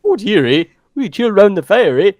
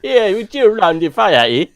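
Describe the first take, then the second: First: Put-on a jokey Canadian accent, louder, ending on a drawn "eh"; hammed-up Canadian accent. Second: Put-on a jokey Canadian accent with a Jamaican lilt, ending on "eh". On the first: Playing up the accent while his co-host laughs, in a hammed-up Canadian accent. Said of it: "What is that?". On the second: After the co-host hears Jamaican in it, a mock Canadian-Jamaican accent. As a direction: blend Canadian and Jamaican on purpose for laughs. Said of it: "Canadian mixed with Jamaican".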